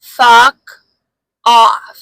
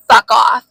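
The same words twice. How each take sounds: First: "Fuck ... off" split by a long pause, both words loud; emphatic retold rebuff. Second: Loud, quick mock brush-off; retold rebuff. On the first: Woman repeating the rebuff to a man who won't listen, loud and word by word. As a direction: punch "Fuck", wait, then punch "off". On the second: Woman retelling her first rebuff to a man, loud and firm. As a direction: say it loudly in one go.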